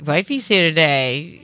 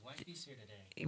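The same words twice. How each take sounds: First: Said in the usual way. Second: "Wifey's here today" whispered under the mic; barely audible whisper. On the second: Real, not acted. Host greets his wife in a bare whisper. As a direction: breathe it off mic. Near-silent first try.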